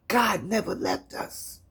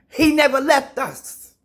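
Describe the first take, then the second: First: Quiet. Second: High, loud proclamation; loud preaching. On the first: Quiet line after loud build. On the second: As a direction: proclaim it with conviction. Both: Real, not acted.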